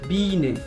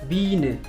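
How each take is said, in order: No difference in how they are said.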